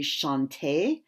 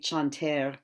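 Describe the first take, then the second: First: It is said with modern French pronunciation. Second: It is said with medieval French pronunciation. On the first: The speaker calls it wrong. "we don't say chanter" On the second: The speaker calls it right. "we say chanter"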